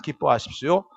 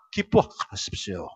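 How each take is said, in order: First: Said in the usual way. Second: 기뻐하십시오 said slowly and low; weighty, slow, low-pitched 기뻐하십시오; emphatic repeat. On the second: Shown as a demonstration. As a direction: repeat 기뻐하십시오 deliberately, drawn out and lower. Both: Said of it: "다시 말합니다".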